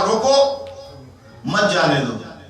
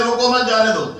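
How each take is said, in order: First: The pause comes after 'roko', meaning stop him. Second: The pause comes after 'mat', meaning let him go.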